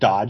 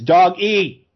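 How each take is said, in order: First: It is said as one syllable, like dodge. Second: It is said as two syllables, dog-ee. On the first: The speaker calls it wrong. "It's not Dodge" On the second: The speaker calls it right. "It's Dog-E"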